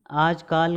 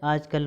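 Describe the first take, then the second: First: आजकाल ending on long "kaal"; wrong long vowel. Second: आजकल ending on short "kal"; short last vowel. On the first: Teacher showing the error, long "kaal" in आजकाल. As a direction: stretch the last vowel of आजकाल. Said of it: "गलत है". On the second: Teacher correcting students, short "kal" in आजकल. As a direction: keep the end of आजकल brief. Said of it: "होता है". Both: Shown as a demonstration.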